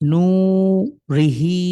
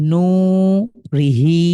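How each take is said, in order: Both takes have the same delivery.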